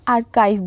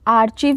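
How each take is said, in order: First: The middle consonant is a k sound. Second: The middle consonant is a ch sound. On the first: The speaker calls it right. "बोलना है" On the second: The speaker calls it wrong. "इसको नहीं pronounce करना है"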